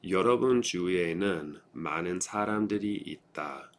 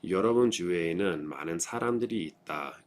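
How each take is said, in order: First: The sentence is read at a slow pace. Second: The sentence is read at a quicker pace. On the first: "I'm going to read through them once slowly" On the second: "I'll go through it a little more quickly"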